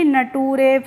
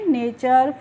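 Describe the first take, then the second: First: The ending is said like 'tooray'. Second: The ending is said like 'chur'. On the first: The speaker calls it wrong. "ऐसे ही नटूरे ... नहीं पढ़ेंगे" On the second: The speaker calls it right. "क्या पढ़ेंगे? नेचर"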